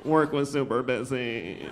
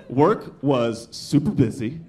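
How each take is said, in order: First: Slow, drawn-out mocking repeat, sinking at the end; mocking echo. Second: Slow, emphatic whiny account of a workday; complaining friend. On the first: Tired parent echoing a childless friend's complaint, slowly mocking. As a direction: parrot the complaint back with weary scorn. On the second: Acted. Childless friend complaining to a tired parent, slow and emphatic. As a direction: draw out each word as a grievance.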